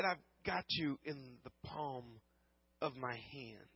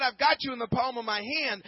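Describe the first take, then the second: First: Much softer, fading almost to nothing; soft, slow promise from God; hushed promise. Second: Louder, ringing declaration of the promise; proclaimed promise. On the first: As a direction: let it drop to a near whisper, tender and slow. God's promise, repeated hushed. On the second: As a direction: preach it out with full conviction. Same promise, now proclaimed. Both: Retold or imitated.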